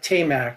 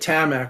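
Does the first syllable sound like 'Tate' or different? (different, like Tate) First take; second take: like Tate; different. First: The first syllable sounds like the word 'Tate'. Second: The first syllable does not sound like 'Tate'. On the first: The speaker calls it right. "Tate and Ta- Tamac is the way you should pronounce that" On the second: The speaker calls it wrong. "I had been calling it Tamac all these years"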